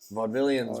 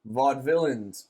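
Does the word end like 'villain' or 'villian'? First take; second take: villian; villain. First: The ending sounds like 'villian', three syllables. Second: The ending sounds like 'villain', two syllables. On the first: The speaker calls it right. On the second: The speaker calls it wrong. "I thought it was villain"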